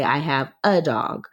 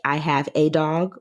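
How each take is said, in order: First: The word 'a' is a reduced 'uh' sound. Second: The word 'a' is a full 'ay' sound. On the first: The speaker calls it right. "We usually say" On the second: The speaker calls it wrong. "Most of the time, we do not say"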